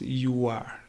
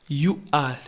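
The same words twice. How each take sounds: First: The words are reduced and blended together. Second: Both words are said fully and separately. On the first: "becomes you are" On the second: "remember that you are becomes"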